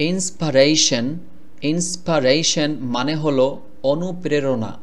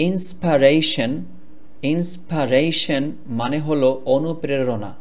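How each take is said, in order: The two takes are said the same way.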